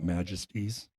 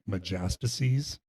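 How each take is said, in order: First: The word is said with three syllables. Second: The word is said with four syllables. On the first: The speaker calls it right. "I said this last time about majesties" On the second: The speaker calls it wrong. "I couldn't say. ... but I was saying majastices"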